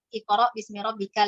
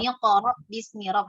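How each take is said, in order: First: It starts fresh with a glottal 'i' sound. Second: It is joined on with an 'm' sound. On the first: The reader stops at the end of each verse. "kalau kita tuh bacanya stop ya" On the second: The reader runs the verses together without stopping. "harusnya kan begitu"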